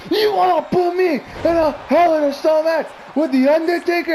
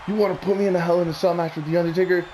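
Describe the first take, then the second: First: Very high, frantic mimicked scream; screamed heel impression. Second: Brisk, lightly imitated Edge line; a quick first run at mimicking the heel; quoted heel promo. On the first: Fan imitating Edge's old heel promo, screaming hysterically. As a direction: shriek it like an unhinged wrestling villain. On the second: Fan quoting Edge's old heel promo, lightly imitated.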